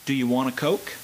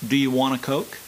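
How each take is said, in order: First: The words flow smoothly linked together. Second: The same.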